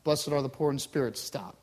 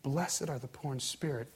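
First: Low, disconnected teletype reading; teletype readout. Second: Low, soft, compassionate blessing; warm, compassionate. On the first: Words reach a far-off listener, teletype readout. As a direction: read it out like a ticker tape, dropping on "Stop". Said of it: "coming through teletype". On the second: Jesus looks at you up close, warm compassion. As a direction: say it softly, straight to one person. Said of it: "and the warmth in his voice". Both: Acted.

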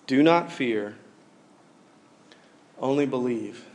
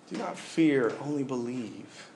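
First: Said in the usual way. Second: Much softer, slowed second take; soft, slow repeat. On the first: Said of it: "reading Jesus' words, then repeated". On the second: Shown as a demonstration. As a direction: let it sink in gently. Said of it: "repeats the verse softly".

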